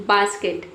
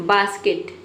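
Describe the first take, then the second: The two takes are said the same way.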